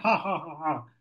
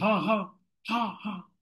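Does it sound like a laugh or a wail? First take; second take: laugh; wail. First: It is a gleeful, mocking laugh. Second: It is a distressed, lamenting cry.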